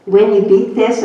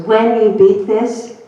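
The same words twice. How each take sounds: First: "when you beat this" said lightly, no special stress; plain. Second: "When" slowed and pressed with a rise, as a certainty; stress on WHEN. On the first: Doctor mentioning her recovery, said plainly. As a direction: say it in passing. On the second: Doctor correcting the patient's doubt, stressing when. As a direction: insist on "When" not if. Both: Retold or imitated. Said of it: "Well, if I beat it".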